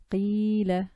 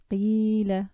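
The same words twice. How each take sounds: First: "Qila" with a long ee sound; long i demo. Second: "qila" with a long, held ee; repeated long i demo. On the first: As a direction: stretch the ee in "Qila". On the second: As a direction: sing out the ee in "qila". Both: Shown as a demonstration. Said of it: "preceded by a letter with a kasra".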